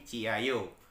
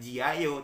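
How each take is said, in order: First: The word begins with a voiceless ch sound. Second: The word begins with a voiced j sound. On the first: The speaker calls it right. "tapi Ciayo" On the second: The speaker calls it wrong. "bukan Jiayo"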